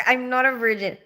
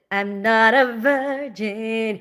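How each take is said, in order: First: Said in the usual way. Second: "I'm not a virgin" drawn out slowly, each word weighted; slow emphatic repeat. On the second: Real, not acted.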